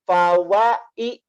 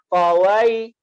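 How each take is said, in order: First: The vowel and the y sound are split apart. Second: The vowel glides straight into the y sound. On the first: The speaker calls it wrong. "Tidak fawai" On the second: The speaker calls it right. "tetapi langsung mengalir"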